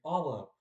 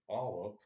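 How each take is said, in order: First: It is said in a friendly, inviting tone. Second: It is said in a disgusted tone. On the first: The speaker is glad to see the listener. "that's like a friendly tone, a, a friendly, inviting tone" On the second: The speaker dislikes the listener and wants to avoid them. "with a disgusted tone"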